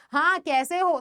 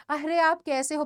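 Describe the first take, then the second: First: Curt "हाँ, कैसे हो?" with a dismissive falling "हाँ"; offhand, impolite "हाँ, कैसे हो?"; rude greeting. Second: Friendly "अरे आप कैसे हो?" with a light, caring lift on "आप"; courteous "अरे आप कैसे हो?"; polite greeting. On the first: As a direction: ask as if you couldn't care less. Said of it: "ये तो बहुत ही गलत लगेगा". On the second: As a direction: ask kindly, warmly interested. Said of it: "message है तुम्हारा कि". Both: Shown as a demonstration.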